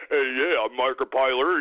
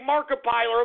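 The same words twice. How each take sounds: First: Mocking impression, pitched way down; Markiplier. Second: Said in the usual way. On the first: Ranter showing how the YouTuber talks, mocking low impression. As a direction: put on a much lower voice to ridicule him. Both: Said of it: "he talks like that".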